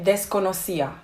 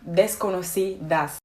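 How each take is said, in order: First: The final s sound is dropped. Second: The final s sound is pronounced. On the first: "she leaves out the ending of the word" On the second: "That's the actual word"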